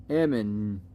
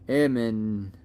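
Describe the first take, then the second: Both takes have the same delivery.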